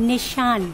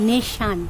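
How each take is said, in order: Both takes have the same delivery.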